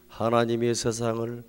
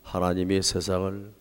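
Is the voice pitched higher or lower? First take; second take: higher; lower. First: It is read at a higher pitch. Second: It is read at a low pitch. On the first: The speaker calls it right. "미" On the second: The speaker calls it wrong. "도"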